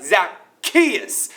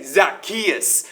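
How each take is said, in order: First: Zacchaeus drawn out in a put-on accent, lifted at the end. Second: Said in the usual way. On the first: Shown as a demonstration. Youth speaker showing the crowd how to say the name, put-on accent. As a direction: put an exaggerated accent on Zacchaeus, ending on a rise. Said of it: "you gotta say it with, like, that accent". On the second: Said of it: "Look at your neighbor right now and say".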